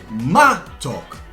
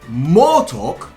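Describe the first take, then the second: First: The first vowel is reduced to an A sound. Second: The first vowel is a full O sound. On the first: This is how the word is actually spoken. The speaker calls it right. "but we pronounce the word matok, because we don't put a stress on the first O" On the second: This is how the word is written. The speaker calls it wrong. "We write the word motok"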